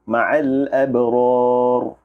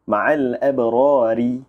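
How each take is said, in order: First: The phrase ends on a heavy, thick r sound. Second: The final r is followed by an i vowel. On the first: The reading stops at this word. "apabila kita mematikan ... Tebal, huruf ra yang tebal" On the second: The reading continues without stopping here. "asal pembacaannya adalah ma'al abrari. Okey, kerana huruf ra berbaris bawah"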